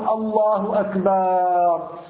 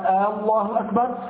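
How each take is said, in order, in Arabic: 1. تُمَدّ الحركة التي بعد صوت الباء. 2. تُمَدّ الفتحة الأولى في الكلمة الأولى. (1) "يمد الباء" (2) "فإذا مدها تبطل الصلاة"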